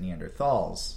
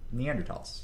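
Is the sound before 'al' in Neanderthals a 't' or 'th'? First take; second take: th; t. First: The middle consonant is said as a 'th' sound. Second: The middle consonant is said as a plain 't' sound. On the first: The speaker calls it wrong. "they took out the H. Because people would pronounce it Neanderthals" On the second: The speaker calls it right. "the way anthropologists would explain it"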